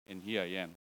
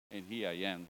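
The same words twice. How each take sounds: The two takes are said the same way.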